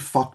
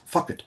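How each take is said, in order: First: The word is said as one syllable. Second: The word is said as two syllables. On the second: "pronounced as having two syllables"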